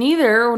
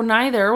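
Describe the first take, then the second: First: Neither said as nee-ther. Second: Neither said as nye-ther. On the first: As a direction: say Neither with an ee sound. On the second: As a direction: say neither with an eye sound. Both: Shown as a demonstration. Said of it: "Tomato, tomato".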